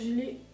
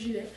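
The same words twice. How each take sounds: First: It is said in a standard French accent. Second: It is said in the speaker's own local accent.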